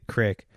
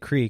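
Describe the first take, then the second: First: The vowel is short, like in 'pick'. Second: The vowel is long, like in 'seek'. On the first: This is how other people say it. "They say crick" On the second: This is how the speaker says it. "I say creek"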